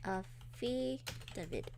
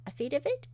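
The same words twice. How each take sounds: First: "Affidavit" very slowly, syllable by syllable, softer; slow, quiet, falling "Affidavit", feeling out each part; sounding it out. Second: "Affidavit" tried out with a rising questioning end; unsure pronunciation. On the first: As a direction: break "Affidavit" into careful separate syllables. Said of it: "the stress on the first and third syl". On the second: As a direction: test "Affidavit" as a question, voice lifting. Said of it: "Is it affidavit?". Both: Real, not acted.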